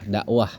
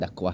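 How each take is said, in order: First: The middle consonant is a glottal stop. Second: The middle consonant is a clear k sound. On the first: The speaker calls it right. "Karena dia pakai alif hamzah ya" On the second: The speaker calls it wrong. "bukan pakai kaf"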